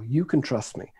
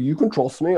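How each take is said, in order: First: It is said in a British accent. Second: It is said in a Norwegian accent. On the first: "when I say it with a British accent, it works quite well" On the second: "If I say it with a Norwegian accent, that works quite well too"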